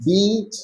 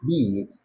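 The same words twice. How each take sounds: First: "Beat" lifted up at the end; rising drill. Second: "beat" dropped low and quieter; falling drill. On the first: Teacher drilling word pairs, rising. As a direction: rise on "Beat". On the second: Teacher drilling word pairs, falling. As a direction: fall away on "beat". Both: Shown as a demonstration. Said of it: "pronouncing these words the same".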